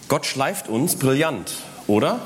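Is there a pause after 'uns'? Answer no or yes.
no. It runs on without a pause after 'uns'. God polishes us brilliantly. "Gott schleift uns brillant, Komma, oder"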